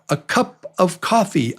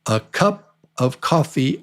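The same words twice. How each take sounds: First: The phrase is said at a fast pace. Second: The phrase is said at a slower pace.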